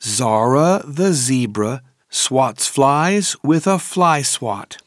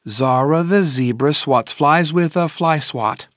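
First: The sentence is said at a moderate pace. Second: The sentence is said at a fast pace.

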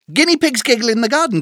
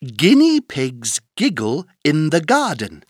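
First: The sentence is spoken at a very fast pace. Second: The sentence is spoken at a moderate pace.

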